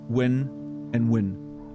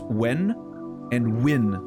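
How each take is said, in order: First: Both words are pronounced with the same sound. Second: The two words are pronounced with clearly different sounds. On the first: This is how many Americans say them. "they would pronounce it the same way, like I just did right now" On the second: This is how the speaker personally says them. "To me, it's when and win, which is extremely different"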